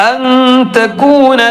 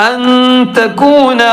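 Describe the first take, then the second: The two takes are said the same way.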